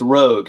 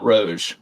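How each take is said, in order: First: The name ends with a hard g sound. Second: The name ends with a soft g sound. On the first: The speaker calls it right. "It's Rogue" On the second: The speaker calls it wrong. "not Roge"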